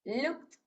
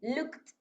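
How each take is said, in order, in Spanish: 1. El final se pronuncia como un sonido t. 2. El final se pronuncia como un sonido t.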